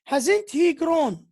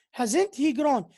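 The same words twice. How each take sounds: First: Hasn't he grown said slowly, falling at the end; final falling tone. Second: Hasn't he grown with a fall at the end. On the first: Teacher modelling exclamatory question, slow falling tone. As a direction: let the tune fall on grown. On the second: Teacher repeating the model with falling tone. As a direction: drop the tune at the close. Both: Shown as a demonstration. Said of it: "It has a final falling tone".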